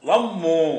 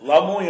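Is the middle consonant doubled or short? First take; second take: doubled; short. First: The middle consonant is doubled and pressed. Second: The middle consonant is short and light. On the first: "அப்படி அழுத்தி சொல்லுவோம்" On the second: "லமு லமு என்று சொல்லுவோம்"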